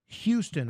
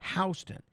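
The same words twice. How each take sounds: First: Houston begins with a 'hue' sound. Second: Houston begins with a 'how' sound, New York style.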